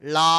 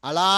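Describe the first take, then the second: First: The syllable starts directly with la. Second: An extra 'a' vowel comes before la. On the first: The speaker calls it right. "లా అనాలి అంతే" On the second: The speaker calls it wrong. "మామూలుగా అలా అనకూడదు"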